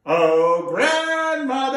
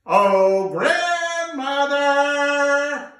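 First: Louder, higher slow call. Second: Much louder, high, very slow drawn-out call. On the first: Grandfather calling his wife. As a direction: call across the field. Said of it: "I don't think you said it loud enough". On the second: Grandfather calling his deaf old wife. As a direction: bellow it to someone hard of hearing. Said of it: "You gotta say it with me". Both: Acted.

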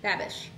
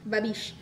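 First: Babish as BAB-ish, short a up front; first-syllable stress. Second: Babish as buh-BEESH, long ee at the end; second-syllable stress. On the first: Trying out an author's name, Babish as BAB-ish. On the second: Trying the other version of an author's name, Babish as buh-BEESH. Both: Shown as a demonstration. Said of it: "Is it Babish or Babish?".

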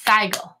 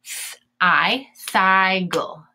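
First: Said in the usual way. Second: Thiggle drawn out in syllables, thigh-gull; Th-, I, then thiggle split as thigh-gull; sounding out. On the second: Shown as a demonstration. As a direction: sound out thiggle slowly with a long I. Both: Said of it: "gonna say its name".

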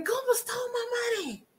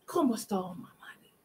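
First: Higher and a mock tearful cry; mock crying wail. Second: Softer, in a mocking whisper; whispered echo. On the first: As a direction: wail it like a fake sob. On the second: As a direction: repeat it under your breath. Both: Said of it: "She's telling everybody".

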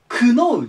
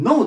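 First: クノー with a K sound at the start, the wrong way; クノー with the K spoken before ノー. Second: ノー with no K at all, plain "no"; ノー starting straight on N, the K dropped; silent K. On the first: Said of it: "クノーじゃなくて". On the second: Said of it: "Kの発音をせずに". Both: Shown as a demonstration.

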